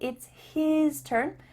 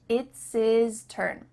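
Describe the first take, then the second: First: The H sound in 'his' is pronounced. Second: The H sound in 'his' is dropped. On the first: "We're not saying it's his turn" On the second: "The H at the beginning of his and her is cut off"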